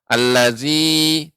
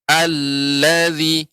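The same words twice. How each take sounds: First: The opening 'al' is cut short. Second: The opening 'al' is held longer. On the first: The speaker calls it wrong. "masih terdengar allazi, tidak" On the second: The speaker calls it right. "yang benar allazi, al ditahan dulu"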